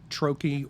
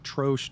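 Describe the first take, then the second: First: The word is said with an American pronunciation. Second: The word is said with a British pronunciation. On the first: "depending on if you're American or British" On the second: "depending on if you're American or British"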